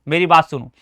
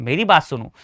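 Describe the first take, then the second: The two takes are said the same way.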